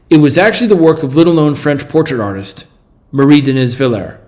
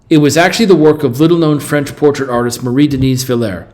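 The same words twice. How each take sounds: First: There is a pause before the name. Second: There is no pause before the name. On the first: The speaker calls it wrong. "Let me say it with a pause" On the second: The speaker calls it right.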